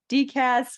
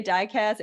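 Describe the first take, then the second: First: 'D cas' spelled out as a letter, 'DEE-kas', with a raised, stressed 'D'; other people's D-cas. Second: 'dicas' said as one quick word, 'DIH-kas', first syllable short and unstressed-leaning; her own way of saying dicas. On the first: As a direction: say 'D cas' with the letter D said high and separate, then 'kas'. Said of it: "I know some people say D". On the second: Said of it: "I know some people say". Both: Shown as a demonstration.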